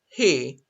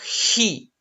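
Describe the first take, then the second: First: It starts with a soft, breathy h sound. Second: It starts with a harsh, throaty h sound. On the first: The speaker calls it right. "it's a soft J" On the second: The speaker calls it wrong. "it's not he"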